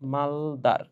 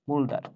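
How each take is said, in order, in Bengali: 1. প্রথম সিলেবলে স্বরধ্বনি 'a', যেমন 'mal'। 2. প্রথম সিলেবলে স্বরধ্বনি 'u', যেমন 'mul'। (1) "নামের মধ্যে আছে মাল" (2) "বাংলা উচ্চারণে বইয়ে মূলদার বলা আছে"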